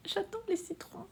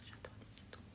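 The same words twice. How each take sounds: First: Squeaky high. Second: Whispered. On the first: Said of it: "reads chat in a squeaky voice". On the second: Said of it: "repeats it whispered". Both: Pretend.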